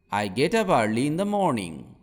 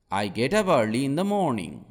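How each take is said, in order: Both takes have the same delivery.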